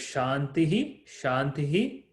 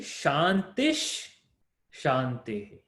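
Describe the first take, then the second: First: The first word ends in a breathy h sound. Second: The first word ends in an sh sound.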